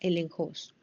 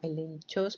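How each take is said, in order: First: The middle consonant is a throaty 'j' sound. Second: The middle consonant is a 'ch' sound. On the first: "pero se pronuncia elenjos" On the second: "como elenchos"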